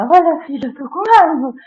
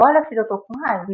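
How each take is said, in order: First: Louder and higher, snapping in anger; angry outburst. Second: Said in the usual way. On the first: Shown as a demonstration. Parent yelling at son about being angry. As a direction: yell it at the son. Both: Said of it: "e não é".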